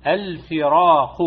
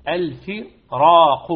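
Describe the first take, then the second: First: Slow الفراق with a heavy ra. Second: Loud, slow الفراق with a thick emphatic ra. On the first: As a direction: draw out الفراق deliberately. (الفراق ببطء وتفخيم) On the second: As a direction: press out الفراق with a full heavy ra. (الفراق بصوت عال وتفخيم) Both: Shown as a demonstration. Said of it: "فتقرأ الفراق وليس الفراق".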